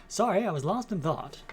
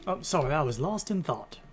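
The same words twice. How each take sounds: First: Higher, louder Mid-Atlantic accent; old-Hollywood Mid-Atlantic accent. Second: Said in the usual way. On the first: Shown as a demonstration. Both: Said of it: "Maybe we'll do Mid-Atlantic accent".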